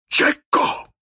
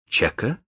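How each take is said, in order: First: Iron voice. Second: Said in the usual way. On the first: Acted. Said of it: "своим самым железным голосом".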